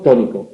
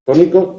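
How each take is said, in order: First: Tónico pitched low and falling. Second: Tónico with the pitch going up; rising emphasis. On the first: Teacher contrasting emphasis, low falling tune on tónico. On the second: Teacher demonstrating emphasis, rising tune on tónico. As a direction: lift tónico at the end. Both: Shown as a demonstration. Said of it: "Eso es el énfasis".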